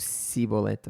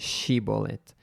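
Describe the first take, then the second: First: The word begins with an s sound. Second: The word begins with an sh sound. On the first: The speaker calls it wrong. "eles não pronunciavam sh, eles diziam s, então Sibolete" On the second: The speaker calls it right. "O povo de Efraim não conseguia uh, pronunciar Shibolete"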